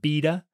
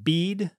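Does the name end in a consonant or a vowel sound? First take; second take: vowel; consonant. First: The name ends in a vowel sound. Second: The name ends in a consonant sound. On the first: "some people pronounce it Beda"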